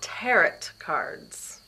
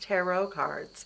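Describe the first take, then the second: First: The final T of tarot is pronounced. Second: The final T of tarot is silent. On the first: The speaker calls it wrong. "they're not tarot cards" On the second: The speaker calls it right. "The T is silent"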